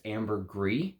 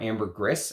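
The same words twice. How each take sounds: First: "ambergris" ending in a long "gree"; casual pronunciation. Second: "ambergris" ending in a short "griss"; proper pronunciation. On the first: Naming the note the common way to viewers, casual pronunciation. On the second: Correcting the note's name for viewers, proper pronunciation. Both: Shown as a demonstration. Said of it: "as you're supposed to properly say it".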